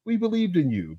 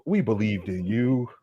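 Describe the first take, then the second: First: 1 higher. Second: 1 slow. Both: Real, not acted. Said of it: "repeated line".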